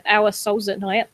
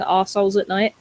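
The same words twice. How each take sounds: First: Said in the usual way. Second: Imitated Cockney, "Our" flattened to "arse"; dad's Cockney accent. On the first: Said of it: "when my dad says it". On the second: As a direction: say it like a Cockney dad, slightly lower. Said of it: "in his Cockney accent".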